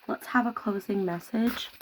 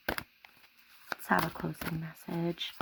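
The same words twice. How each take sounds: First: Said in the usual way. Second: Softer and slow, calling to the spirit; hushed, slow summoning voice; slow soft invocation. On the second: Acted. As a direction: draw it out quietly, like an invocation. Asking spirit for message.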